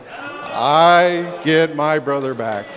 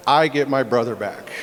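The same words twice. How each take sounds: First: Slow, every word leaned on; slow emphatic repeat. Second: Said in the usual way. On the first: Real, not acted. Brother repeats to the crowd, slow and emphatic. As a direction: drag it out so it lands.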